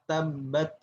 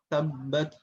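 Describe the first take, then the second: No difference in how they are said.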